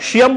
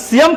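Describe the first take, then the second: First: "সিয়াম" as SHIAM; a sh sound opening "সিয়াম"; mispronounced SH. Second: "সিয়াম" with a clean s; S pronunciation. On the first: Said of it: "বললে ভুল হবে". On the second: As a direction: say "সিয়াম" as SIAM. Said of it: "সিয়াম correct". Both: Shown as a demonstration.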